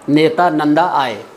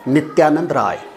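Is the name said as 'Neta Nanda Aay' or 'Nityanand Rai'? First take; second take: Neta Nanda Aay; Nityanand Rai. First: The name is said as 'Neta Nanda Aay'. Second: The name is said as 'Nityanand Rai'. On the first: The speaker calls it wrong. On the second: The speaker calls it right.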